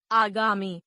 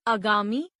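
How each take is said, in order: First: Said in the usual way. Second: आगामी with a short opening "a"; mispronounced. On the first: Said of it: "शुद्ध". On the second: Shown as a demonstration. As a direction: say आगामी as "agaami". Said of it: "अशुद्ध".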